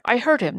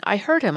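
First: High, loud, panicked I heard him; frantic insistence. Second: Steadier, less frantic I heard him; insist, but recovering your breath; calmer insistence. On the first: Servant accusing the tramp to the constable, frantic and high. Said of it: "blurting out jerky, half-intelligible sentences". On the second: Servant calming down, pressing the constable, steadier insistence. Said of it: "gradually recovering from his excitement". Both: A narrator's reading.

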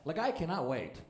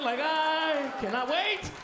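First: Said in the usual way. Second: High, drawn-out "cannot wait"; hammed-up excitement. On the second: Comic who cannot wait for construction awards, drawn-out excitement. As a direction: stretch every word out, high and eager. Hammed-up repeat of his line.

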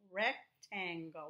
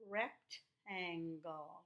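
First: Rectangle read slowly and clearly. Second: Rectangle stretched out slowly syllable by syllable; sounded out. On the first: Teacher to pupils, reading the word slowly. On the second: Teacher to young pupils, sounding the word out slowly. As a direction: sound out rectangle very slowly, rec-tan-gle. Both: Shown as a demonstration.

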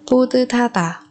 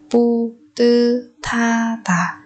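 First: Said in the usual way. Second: Very slow "pu tư tha tả"; syllable by syllable. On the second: Shown as a demonstration. Teacher modelling a word for learners, very slowly. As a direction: draw out each syllable of "pu tư tha tả".

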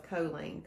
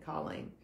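First: Colleen with a long O, KOH-leen; her own pronunciation of Colleen. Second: Colleen with a short first vowel, KAH-leen; usual pronunciation of Colleen. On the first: Speaker quotes how a new acquaintance says it, KOH-leen for Colleen. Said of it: "calls herself Colleen". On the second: Speaker compares two ways of the name, KAH-leen for Colleen. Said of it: "calls herself Colleen, Colleen". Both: Shown as a demonstration.

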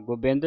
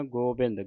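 First: ਗੋਬਿੰਦ with a short u, like "gubind"; ਗੋਬਿੰਦ as "gu-bind", the mistaken reading; short first vowel. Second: ਗੋਬਿੰਦ with a full long o, "go-bind"; ਗੋਬਿੰਦ as "go-bind", the corrected reading. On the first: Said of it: "ਨਹੀਂ ਪੜ੍ਹਨਾ". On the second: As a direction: hold a clear o after the g in ਗੋਬਿੰਦ. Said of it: "ਗੱਗੇ ਹੋੜਾ ਲੱਗਾ ਹੈ". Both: Shown as a demonstration.

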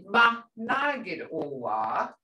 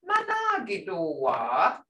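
First: "Ma nagid owa" slow, rising on "owa"; slow teacher model, "owa" lifted; question tune demo. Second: "Ma nagid owa" with a rising end on "owa"; teacher repeats the rising question; question tune demo. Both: Shown as a demonstration. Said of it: "Hear that question?".

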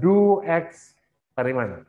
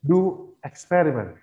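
First: "experiment" dragged, ending in "-man"; wrong "do experiment". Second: "experiment" stressed on "per", light ending; correct "do experiment". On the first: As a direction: slowly misread it as "do ex-periman". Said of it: "Bukan do experiment". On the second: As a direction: say "do experiment" with a reduced last syllable. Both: Shown as a demonstration.

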